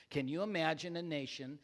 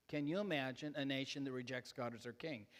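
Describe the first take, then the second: First: Pointed sarcasm. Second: Understated sarcastic question, lower and softer; dry sarcasm. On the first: Shown as a demonstration. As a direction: underline the sarcasm a little more. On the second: Real, not acted. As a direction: slip the sarcasm in quietly. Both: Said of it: "you don't get the sarcasm in that".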